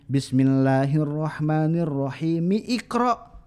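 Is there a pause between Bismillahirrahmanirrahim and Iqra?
no. It runs straight on into Iqra. The speaker calls it wrong. "menggabung antara bismillah dengan Iqra ... itu tuh salah"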